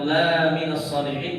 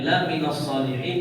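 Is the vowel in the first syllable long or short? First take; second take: long; short. First: The vowel in 'la' is long. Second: The vowel in 'la' is short. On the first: He is not among the righteous. "Tapi kalau dibaca panjang" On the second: He is indeed among the righteous. "kalau la-nya pendek"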